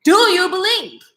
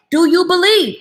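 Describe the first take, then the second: First: Higher, gentler Jesus asking again; voicing Jesus. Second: Louder, higher Jesus asking the crowd; Jesus calling out a question to the crowd; voicing Jesus. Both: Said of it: "guess what he said".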